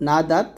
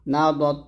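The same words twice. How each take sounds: First: না দাত with light open D; thin dal. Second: না দত with heavy rounded D; thick dad. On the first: Teacher comparing spellings for learners, না দাত with thin D. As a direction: keep দাত thin and front. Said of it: "দেখুন বাংলা উচ্চারণটা". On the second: Teacher comparing spellings for learners, না দত with thick D. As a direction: fatten the D in দত. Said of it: "এরকম". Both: Shown as a demonstration.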